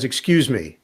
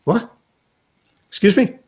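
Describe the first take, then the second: First: Lightly voiced polite opener; understated, even approach to a stranger; Kyrie. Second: Higher, rising questions; puzzled. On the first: Player to the man with the newspaper, politely understated. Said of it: "And Kyrie says". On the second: Retold or imitated. Newspaper reader wrongly praised as broadcaster, puzzled. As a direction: imitate a baffled stranger, voice tipping up. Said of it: "this guy is like".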